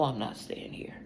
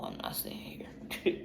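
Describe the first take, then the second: First: Soft unvoiced whisper; hushed determined whisper. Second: Softer, slow unvoiced whisper; whispered resolve, slowed down. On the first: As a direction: breathe it out as a whisper. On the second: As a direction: drag it out in a hush.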